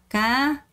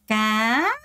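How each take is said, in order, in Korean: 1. 성조가 완전히 올라가지 않고 평평하게 유지돼요. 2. 성조가 완전히 위로 올라가요. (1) "그냥 까 아니고요" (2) "완전히 올려야 돼요"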